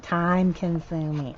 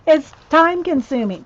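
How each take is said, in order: First: Slow and drawn out. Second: Loud, high exasperated groan. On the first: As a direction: drag it out, resigned. Repeats it drawn out. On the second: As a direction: burst out, fed up. Exasperated about slow work. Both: Real, not acted.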